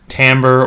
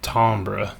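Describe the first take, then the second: First: It is said with the ordinary accepted pronunciation. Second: It is said with a fancy, refined pronunciation. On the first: "but it's actually, for complicated etymological reasons, pronounced timbre" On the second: "or if you're being super fancy"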